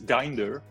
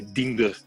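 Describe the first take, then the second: First: The name is said with a British accent. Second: The name is said with a Dutch accent. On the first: "You can say it in U K English, which is Dinder" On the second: "with a thick Dutch accent, you would probably say Diender"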